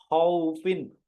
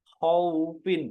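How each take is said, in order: The two takes are said the same way.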